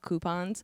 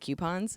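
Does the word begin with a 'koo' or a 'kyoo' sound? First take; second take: koo; kyoo. First: The word begins with a plain 'koo' sound. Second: The word begins with a 'kyoo' sound. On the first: This is the accepted pronunciation. The speaker calls it right. "It's supposed to be like what coupons" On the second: This is the speaker's own habitual pronunciation. The speaker calls it wrong. "but I say coupons"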